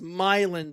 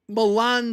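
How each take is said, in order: First: It is said the local Southern way. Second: It is said the standard European way. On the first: This is how people there name the town. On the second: This is the name of the European city.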